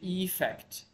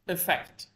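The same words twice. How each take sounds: First: Its first vowel sounds unlike the start of 'affect'. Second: Its first vowel sounds almost like 'affect'. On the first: The speaker calls it wrong. "sometimes we may say effect" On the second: The speaker calls it right. "actually the pronunciation is effect, almost the same as affect"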